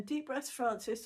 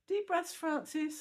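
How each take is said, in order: First: Slow, lightly voiced gentle nurse; a hint of a coaxing nurse, slowly; lovely soothing voice. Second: High, slow, gently coaxing nurse; lovely soothing voice. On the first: Nurse reminding drowsy patient to breathe, mild slow soothing. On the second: Retold or imitated. Nurse coaxing patient in recovery, high soothing and slow. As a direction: soothe a drowsy patient awake, slowly. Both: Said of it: "this lovely voice saying".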